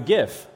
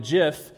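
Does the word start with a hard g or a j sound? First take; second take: hard g; j sound. First: The word starts with a hard g sound. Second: The word starts with a soft j sound. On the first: The speaker calls it wrong. "and not a GIF" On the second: The speaker calls it right. "I'm calling it a GIF"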